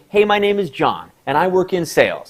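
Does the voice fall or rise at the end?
fall. The voice falls at the end of the sentence. The speaker sounds confident. The speaker calls it right. "as if I say"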